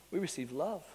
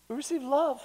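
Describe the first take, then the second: First: "We receive love" said softly, trailing up on "love"; soft statement. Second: "We receive love" repeated higher, "love" falling firmly; "We receive love" pitched up, strong fall on "love"; emphatic repeat. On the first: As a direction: murmur "We receive love" gently, rising at the end. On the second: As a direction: lift the voice and land "love" with weight. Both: Shown as a demonstration.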